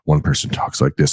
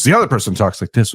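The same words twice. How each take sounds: First: Said in the usual way. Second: Higher, slightly raised demo voice; other person's contrasting voice. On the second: Shown as a demonstration. Host showing uneven TV drama volume, contrasting voice. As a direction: lift the voice to mimic the second talker.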